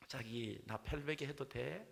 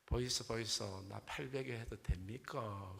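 First: Slow Seoul bride with a rising lilt; Seoul accent bride. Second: Slow Gyeongsang dialect coaxing; Gyeongsang accent bride. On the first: Seoul bride asks for an arm pillow, coy Seoul accent. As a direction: coax in drawn-out Seoul speech. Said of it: "서울 신부가 말합니다". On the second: Gyeongsang bride asks for an arm pillow, Gyeongsang accent. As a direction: ask in Gyeongsang dialect, stretching the ending. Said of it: "경상도 신부도". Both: Acted.

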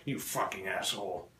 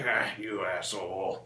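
First: Low, quiet acted curse; annoyed retort. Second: Slow, low, drawn-out mock reproach; amused retort. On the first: Comedian replying to drunk friend who knocked over cup, annoyed. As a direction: curse under the breath, only mildly annoyed. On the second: Comedian replying to friend's joke about his mom, amused. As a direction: stretch it out, letting the friend off.

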